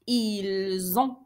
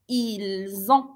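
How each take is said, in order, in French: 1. Ils et ont sont liés par un son z. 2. Ils et ont sont liés par un son z.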